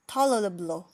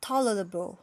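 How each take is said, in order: Both takes have the same delivery.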